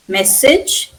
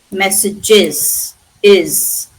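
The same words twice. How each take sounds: First: MESSAGE as MESS-ij, rising; singular ending. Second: MESSAGES very slowly, IS repeated as its ending; extra plural syllable. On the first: Teacher sets the singular against the plural, two syllables. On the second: Teacher shows that is the plural, added syllable. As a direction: draw out MESSAGES, then isolate "iz" as IS. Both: Shown as a demonstration. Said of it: "That is the plural".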